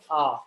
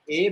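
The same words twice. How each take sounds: First: The letter is said with French pronunciation. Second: The letter is said with English pronunciation. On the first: "A becomes A" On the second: "the pronunciation is a bit different"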